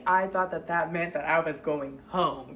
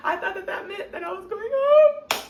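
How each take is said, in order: First: Said in the usual way. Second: High, louder, laughing through it. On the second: Real, not acted. Telling viewers she misread the lawyer, laughing. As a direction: crack up at your own naivety.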